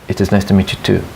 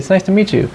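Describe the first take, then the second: First: It is said in a formal, low tone. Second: It is said in a friendly, happy tone. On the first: The speaker does not seem happy to meet them. The speaker calls it wrong. "they have a very formal, low tone. They don't sound happy" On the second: The speaker is glad to meet the person. The speaker calls it right. "the intonation should be friendly"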